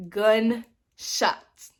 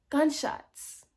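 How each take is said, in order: First: GUNSHOTS split into two slow beats; drawn-out emphasis. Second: Said in the usual way. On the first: Real, not acted. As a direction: stretch "Gunshots", pausing between Gun and shots. Repeats word for dramatic effect.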